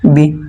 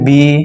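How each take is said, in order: First: The vowel is said short and quick. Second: The vowel is drawn out long. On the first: "টান দেবো না" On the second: "টান হলে বলতাম"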